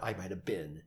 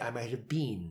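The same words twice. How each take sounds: First: It is said with an American pronunciation. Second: It is said with a British pronunciation. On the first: The speaker calls it wrong. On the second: The speaker calls it right. "We're going to do it with British accents. ... We're going to say"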